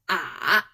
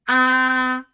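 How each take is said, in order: First: The pitch dips low then turns up. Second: The pitch stays level and high. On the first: "Final ah in the third tone sounds like ah. See, a turn" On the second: "The first tone is flat"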